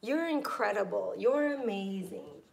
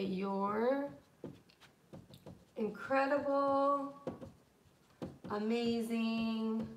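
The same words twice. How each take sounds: First: Said in the usual way. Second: Drawn-out gushing praise. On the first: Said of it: "you can say". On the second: Shown as a demonstration. Teacher demos thanking a friend, slow gushing. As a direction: stretch each word, slowly and gushing. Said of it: "anything to that, like this".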